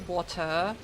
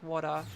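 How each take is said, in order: First: The middle consonant sounds like a crisp T. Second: The middle consonant sounds like a soft D. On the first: "like that, that that's strange to me because it's different" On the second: "It's kind of like with a D sound"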